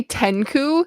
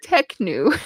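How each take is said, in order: First: "Tenku" with N before K, TEN-koo; mispronounced Tenku. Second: "Teknu" slowly, K before N, TEK-noo; corrected pronunciation. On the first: Reader showing the slip they keep making, mispronounced Tenku. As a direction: swap it round so "Tenku" sounds like ten-koo. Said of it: "the K and the N aren't in the right". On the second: Reader fixing own slip on the name, careful pronunciation. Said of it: "I keep wanna say Tenku". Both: Shown as a demonstration.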